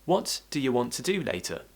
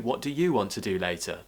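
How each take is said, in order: First: The word 'you' is reduced and unstressed. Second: The word 'you' is fully stressed. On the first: A casual, relaxed question. "this will speed up your speech. So try it with me" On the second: The question is pushed more forcefully onto the listener. "I could actually stress the word you"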